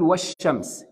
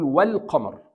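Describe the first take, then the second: First: والشمس as "wash-shams", doubled sh; hidden lam. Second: والقمر as "wal-qamar", L sounded; clear lam. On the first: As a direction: drop the L in والشمس and lean on the sh. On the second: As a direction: pronounce the L in والقمر distinctly before q. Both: Shown as a demonstration. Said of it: "هنا بقول".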